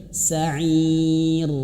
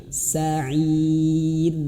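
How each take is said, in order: Both takes have the same delivery.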